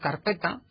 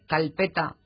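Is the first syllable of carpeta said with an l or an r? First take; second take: r; l. First: The first syllable ends with an r sound. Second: The first syllable ends with an l sound. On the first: This is the standard form. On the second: This is the American Spanish variant.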